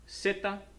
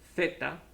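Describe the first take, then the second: First: The word begins with an s-like sound. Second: The word begins with a th sound. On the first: This is how it sounds outside Spain. "In the rest of the Spanish-speaking world, ... we have zeta" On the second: This is how it sounds in Spain. "just like if we were in Spain ... which makes the T H sound"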